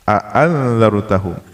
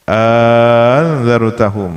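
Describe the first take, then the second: First: Both glottal stops are pronounced clearly. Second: The second glottal stop becomes a long vowel. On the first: "dengan dibaca jelas tahqiq dua hamzahnya" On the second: "dan diganti yang kedua alifan menjadi alif"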